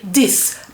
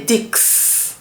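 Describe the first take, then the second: First: The word ends with a plain S sound. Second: The word ends with a KS sound. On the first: The speaker calls it right. "the X there becomes the sound S" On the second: The speaker calls it wrong. "You don't say dix"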